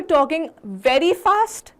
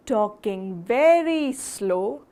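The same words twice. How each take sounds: First: Higher-pitched, brisker demonstration; fast. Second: Slow, drawn-out words with gaps. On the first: Teacher showing the audience too quick a tempo, fast. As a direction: pick up the pace and lift the pitch. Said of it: "If you're talking very fast". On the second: Teacher showing the audience too slow a tempo, very slow. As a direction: drag each word out. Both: Shown as a demonstration.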